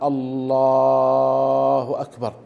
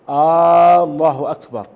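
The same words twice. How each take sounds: First: The l-sound in the first word is drawn out. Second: The opening vowel of the first word is drawn out. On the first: It states that God is greatest. "إن مد اللام في لفظ الجلالة بأن قال الله أكبر" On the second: It asks whether God is greatest. "إن مد همزة الله بأن قال الله أكبر"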